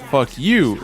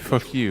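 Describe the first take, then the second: First: It is said as a threat. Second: It is said as a plain statement.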